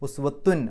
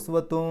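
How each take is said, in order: First: The final n is pronounced clearly. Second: The final n is obscured and barely heard. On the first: "എന്താ ഈ വെളിവാക്കുക എന്ന് പറഞ്ഞാൽ" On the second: "അവ്യക്തമാക്കുക എന്ന് പറയുമ്പോൾ"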